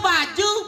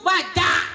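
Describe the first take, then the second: First: The word ends with a 'u' vowel. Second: The word ends with an 'a' vowel. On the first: "Nganggo baju" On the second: "Itu serba A"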